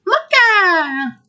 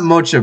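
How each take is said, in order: First: MOCHA very high and slow, last vowel stretched downward; high squealed MOCHA. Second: Said in the usual way. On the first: Shown as a demonstration. Gamer correcting friend on a name, long high squeal. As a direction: squeal out MOCHA, holding the end. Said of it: "It's not Mocha, Pika. It's Mocha!". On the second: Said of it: "you've been saying it wrong".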